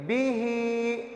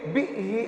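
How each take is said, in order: First: It is read smoothly, at normal pace. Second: It is read abruptly, with a jerk. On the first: The speaker calls it right. "बल्कि बी ही" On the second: The speaker calls it wrong. "ऐसे नहीं कहेंगे"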